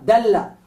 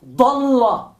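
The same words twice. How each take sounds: First: "dalla" with light d and front a; soft D. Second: "Dalla" with heavy d and dark a, nearly dolla; emphatic D. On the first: Teacher explaining the word for guiding, soft D in "dalla". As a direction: say "dalla" with the d of dedo. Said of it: "la D de dedo, suave". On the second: Teacher explaining the word for getting lost, emphatic D in "Dalla". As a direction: back the first syllable of "Dalla". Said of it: "dad enfática". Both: Shown as a demonstration.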